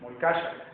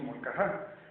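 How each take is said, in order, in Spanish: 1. La consonante del medio es un sonido 'sh' suave. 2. La consonante del medio es una 'h' aspirada y gutural. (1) "su nombre correcto es Molcasha" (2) "hoy le decimos todo, le decimos molcajá"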